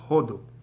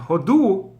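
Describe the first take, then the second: First: The stress is on the first syllable. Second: The stress is on the second syllable. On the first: It means India. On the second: It means to give thanks.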